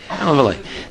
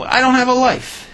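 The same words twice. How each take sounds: First: Said in the usual way. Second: Sudden high plaintive cry, leper to king; pleading leper. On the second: Acted. Leper begging the king, high plaintive cry. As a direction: wail it up high like a pitiful beggar.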